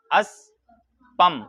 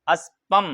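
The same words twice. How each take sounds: First: اسپم stretched very slowly, each sound held; drawn-out demo. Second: Said in the usual way. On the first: Shown as a demonstration. (اسپم کو بہت آہستہ کھینچ کر بولیں) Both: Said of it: "اسپ معنی".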